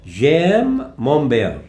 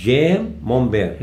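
First: "j'aime mon père" stretched very slowly; drawn-out French model line. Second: "j'aime mon père" stretched again very slowly, at plain pitch; slow even French repeat. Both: Shown as a demonstration.

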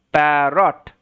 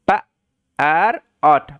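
First: Said in the usual way. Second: "প, আর অট" as short p, gap, ar, ot; sounding out. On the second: Shown as a demonstration. Teacher modelling parrot for learners, sounded out in parts. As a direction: split parrot into separate low-pitched sounds. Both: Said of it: "সাউন্ডটা হচ্ছে প".

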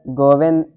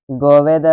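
No difference in how they are said.

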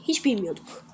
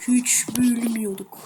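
First: Said in the usual way. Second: Slow secretive whisper. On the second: Shown as a demonstration. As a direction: hush it slowly like a secret. Repeats line, second whispered.

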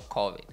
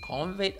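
First: "covid" with no n, as CAW-vid; alternative pronunciation. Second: "covid" with an n, as CON-vid; questioned mispronunciation. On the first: Host checking which name is right, saying CAW-vid. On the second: Host checking which name is right, saying CON-vid. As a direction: try "covid" as "convid". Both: Shown as a demonstration. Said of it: "Is it covid or covid?".

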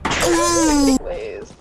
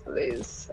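First: A loud, high desperate plea; loud begging please. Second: A breathless whispered last plea; whispered please. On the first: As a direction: shout the plea at the game. Begging the game for gas. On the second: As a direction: let the plea die into a whisper. Begging fades to nothing. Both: Real, not acted.

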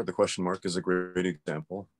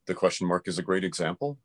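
First: "example" lifted into a question; question intonation. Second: "example" rising as a query; question intonation. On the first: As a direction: turn it into a question, rising on "example". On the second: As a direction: ask it, voice going up on "example". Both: Shown as a demonstration. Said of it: "turned that statement into a question".

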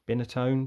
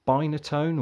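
First: Binatone with a short i, like "bin"; alternative pronunciation guess. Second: Binatone with a long "eye" in the first syllable; first pronunciation guess. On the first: Vlogger trying out the console's name, Binatone said as BIN-a-tone. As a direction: try Binatone starting with the word "bin". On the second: Vlogger unsure of an old console's name, Binatone said as BINE-a-tone. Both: Real, not acted. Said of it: "Is it Binatone or".

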